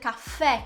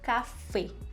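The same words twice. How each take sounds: First: The final vowel is an open e sound. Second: The final vowel is a closed e sound. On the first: The speaker calls it wrong. "Eu não vou dizer café em espanhol" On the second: The speaker calls it right. "Sempre que for dizer o e, fechadinho"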